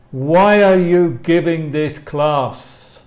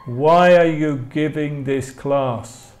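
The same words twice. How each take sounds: The two takes are said the same way.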